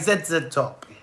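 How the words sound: The Z is said the British way, zed.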